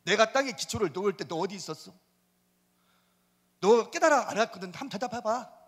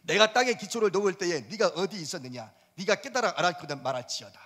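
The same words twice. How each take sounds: First: Paraphrase as a demanding God; everyday-speech version of the verse; God taunting in plain speech. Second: Solemn formal reading of the verse; lofty Bible recitation; scripture reading. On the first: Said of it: "더 대답해봐". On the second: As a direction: read it like scripture aloud. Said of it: "사 절 봅시다". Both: Shown as a demonstration.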